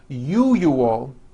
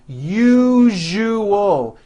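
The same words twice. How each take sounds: First: The middle consonant is said without voicing. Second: The middle consonant is a voiced buzzing zh. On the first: The speaker calls it wrong. "pronounces the word usual as usual" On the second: The speaker calls it right. "needs to be voiced"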